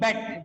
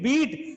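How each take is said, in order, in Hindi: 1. स्वर छोटी 'e' ध्वनि है। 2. स्वर लंबी 'ee' ध्वनि है। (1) "बेट बोलते हैं" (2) "इसको बीट ही नहीं बोलते"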